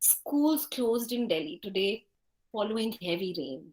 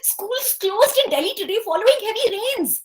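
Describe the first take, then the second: First: It is said slowly and disappointedly. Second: It is said quickly and excitedly.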